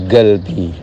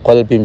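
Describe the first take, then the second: First: The word starts with a g sound. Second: The word starts with a deep q sound.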